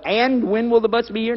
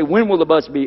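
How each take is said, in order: First: AND lifted high at the start, mock example; higher-pitched demo of AND WHEN; unnatural sentence opener. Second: Said in the usual way. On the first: Shown as a demonstration. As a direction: show how odd a leading AND sounds. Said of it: "Nobody talks like that". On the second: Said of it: "Or they'll say".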